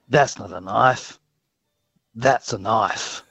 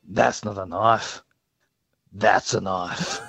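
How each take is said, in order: First: It is said in a plain, unthreatening way. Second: It is said in a scary, menacing way.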